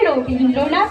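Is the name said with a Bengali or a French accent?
Bengali. The name is said with a Bengali accent. The speaker calls it right. "বাংলা উচ্চারণে"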